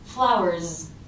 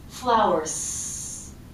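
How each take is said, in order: First: The word ends in a strong Z sound. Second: The word ends in a strong S sound. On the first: "But it also doesn't have a strong Z" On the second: "It doesn't have a strong S. That's not correct"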